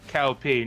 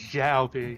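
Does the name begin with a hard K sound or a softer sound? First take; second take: hard K; softer sound. First: The name begins with a hard K sound. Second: The name begins with a soft hissing sound. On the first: The speaker calls it wrong. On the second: The speaker calls it right. "it's Zhao P"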